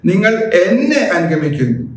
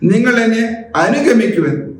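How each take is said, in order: First: The stress falls on the second word. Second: The stress falls on the third word. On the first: Follow me and not anyone else. "നിങ്ങൾ മറ്റാരുടെയും പിറകെ പോകരുതെന്നർത്ഥം" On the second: Walk behind me, not in front. "ഈ മൂന്നാമത്തെ പദം എടുക്കുകയാണെങ്കിൽ"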